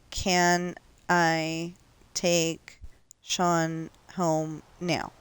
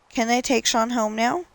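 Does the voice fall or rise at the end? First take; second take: fall; rise. First: It ends falling, like a statement. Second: It ends rising, like a real question.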